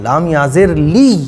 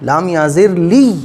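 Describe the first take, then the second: First: The final sound is pressed and doubled. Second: The final sound is pressed and doubled.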